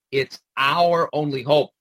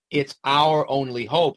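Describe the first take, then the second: First: Our pushed out as the key word; stress on our. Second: Said in the usual way. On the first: Shown as a demonstration. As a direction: lean on our, rest plain. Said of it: "Who's the our here?". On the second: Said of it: "Who's the our?".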